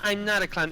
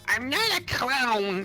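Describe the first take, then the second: First: It is said in a normal pitch. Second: It is said in a very high-pitched voice.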